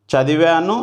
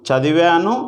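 Both takes have the same delivery.

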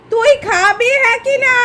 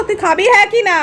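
First: Slow insistent question. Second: Said in the usual way. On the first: Real, not acted. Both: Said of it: "আমি শুধু জানতে চাইছি".

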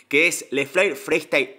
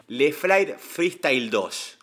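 First: Said in the usual way. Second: Struggling to get the name out, very slow; slow careful naming. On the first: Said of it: "cómo me cuesta hablar hoy". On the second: Real, not acted. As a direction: drag out the title as if the words won't come easily. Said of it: "Hoy me cuesta hablar un montón".

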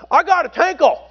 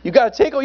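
First: High-pitched Southern teen impression; Dan Parchman. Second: Said in the usual way. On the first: Teen telling pastor he needs a toilet, high imitated voice. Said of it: "That's how he talked".

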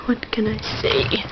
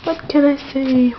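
First: Whisper. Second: Said in the usual way. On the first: Pretend. Repeats line as whisper.

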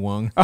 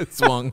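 First: "wung" said as a joke-wrong form of swung, like rhyming with swam; playfully tries out the made-up "wung"; wrong past tense "wung". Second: Said in the usual way. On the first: Shown as a demonstration. Host fumbling the verb, tries the made-up "wung".

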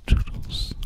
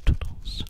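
No difference in how they are said.

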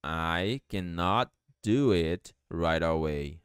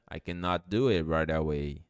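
First: Slow, word-by-word teaching delivery; low, slow language-teacher demonstration; slow model sentence. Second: Said in the usual way. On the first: Shown as a demonstration. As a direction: spell out each word slowly for learners. Teacher models sentence slowly, then faster.

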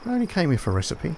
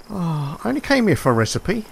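First: Wry deadpan repeat. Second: Exasperated. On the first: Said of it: "repeated after a louder take". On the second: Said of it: "repeated in a flatter voice". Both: Real, not acted.

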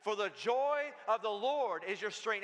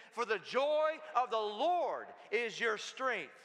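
First: Said in the usual way. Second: Slow, emphatic declaration with JOY and LORD stretched out; like you mean it. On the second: Shown as a demonstration. Preacher leading the church in reciting a verse, like they mean it. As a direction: proclaim it slowly, with full conviction. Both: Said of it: "Now say it like you mean it".

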